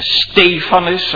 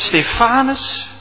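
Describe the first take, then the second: First: The name is stressed as in Greek. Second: The name has its usual Dutch stress.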